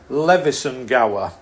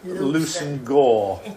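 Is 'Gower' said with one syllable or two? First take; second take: two; one. First: The name is said as spelled, Gower with two syllables. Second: The name is clipped, Gower rhyming with 'gore'.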